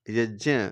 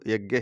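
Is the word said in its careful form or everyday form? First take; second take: careful; everyday. First: The conjunct is said in its careful traditional form. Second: The conjunct is said in its everyday common form. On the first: The speaker calls it right. "वैसे तो यज्ञ इसका सही उच्चारण है" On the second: The speaker calls it wrong. "आम भाषा में आजकल इसको यज्ञ ही कहने लगे"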